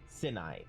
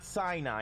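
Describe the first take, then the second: First: It is said unlike the common Christian pronunciation. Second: It is said the way many Christians say it. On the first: The speaker calls it right. "that's how that is pronounced. It's Sinai" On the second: The speaker calls it wrong. "Not Sinai, as a lot of Christians pronounce it"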